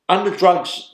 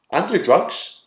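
First: "Under drugs" again, higher and louder, "Under" hit hard; emphatic repeat. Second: Said in the usual way. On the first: Retold or imitated.

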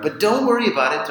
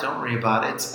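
First: High, fast and bright, brushing it off; sing-song don't-worry brush-off; breezy reassurance. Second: Quiet, sincere follow-up; soft reassurance. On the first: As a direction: toss it off quickly, up high. Reassuring listeners while stuck abroad. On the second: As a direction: drop the voice, calm them down. Repeats reassurance right after. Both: Acted.

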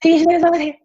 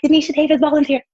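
First: Very high and squeaky; high nervous voice. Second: High, tight, nervous. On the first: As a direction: squeak it like a scared kid. Repeating her nervous self-introduction. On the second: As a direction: squeak your name out nervously. Nervously presenting herself in court. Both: Retold or imitated.

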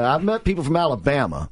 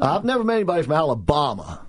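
First: Alabama said "Ala-BAM-uh"; regional pronunciation. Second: Alabama said "Ala-BAH-ma"; mock pronunciation. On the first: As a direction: give Alabama the short "a" of "bam". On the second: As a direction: give Alabama a broad "ah" as in father. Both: Shown as a demonstration.

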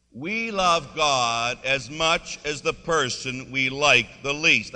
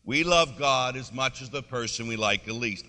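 First: Slow, loud, every word drawn out; congregational recitation. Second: Said in the usual way. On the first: Shown as a demonstration. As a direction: lead the room in saying it together, slowly and firmly. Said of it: "want everybody to say that with me". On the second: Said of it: "say that with me".

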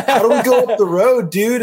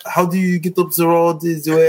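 First: High-pitched exaggerated American accent. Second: Put-on French accent, pitched up. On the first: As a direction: ham up a raised American accent. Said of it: "it in an American accent". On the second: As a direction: fake a French accent on English words. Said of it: "in a French accent". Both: Shown as a demonstration.

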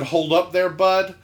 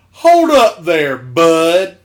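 First: Said in the usual way. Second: Loud, slow, raised coach call; drawn-out mock holler from a coach; Southern coach. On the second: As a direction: imitate a tough coach stopping a kid. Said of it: "gruffest Southern athletic coach men".

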